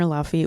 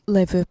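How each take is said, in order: First: The name is said with an 'f' sound. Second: The name is said with a 'v' sound. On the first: The speaker calls it wrong. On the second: The speaker calls it right.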